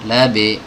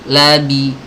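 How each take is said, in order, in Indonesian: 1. Vokal akhirnya terdengar seperti e pendek. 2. Vokal akhirnya adalah i yang penuh dan jelas. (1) "jangan labe" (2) "bi jangan labe"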